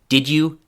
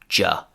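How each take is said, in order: First: It is said in full as two syllables. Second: It is squeezed into one short syllable, ja. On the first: "So did you" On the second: "and finally just ja"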